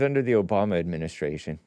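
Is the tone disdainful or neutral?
neutral. It is said in a plain, neutral tone.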